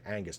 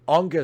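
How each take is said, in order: First: The first vowel sounds like 'an'. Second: The first vowel sounds like 'on'. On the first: The speaker calls it right. "Angus, not Ongus" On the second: The speaker calls it wrong. "I said Ongus before"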